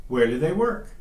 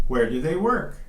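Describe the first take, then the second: No difference in how they are said.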